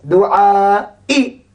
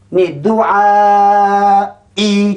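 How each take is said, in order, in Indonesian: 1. Vokal akhirnya dibaca pendek. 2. Vokal akhirnya dibaca panjang. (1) "jangan panjang, baca pen" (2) "Tapi kalau macam ini bacaannya pan, ... Sebaris sama"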